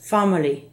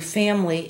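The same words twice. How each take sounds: First: The first vowel is the Spanish A, ah. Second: The first vowel is the open English short A. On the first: The speaker calls it wrong. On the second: The speaker calls it right.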